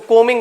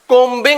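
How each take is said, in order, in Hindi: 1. बीच में b ध्वनि चुप रहती है। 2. बीच में b ध्वनि बोली जाती है। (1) "कोमिंग बोलते" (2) "कोम्बिंग नहीं बोलते इसको"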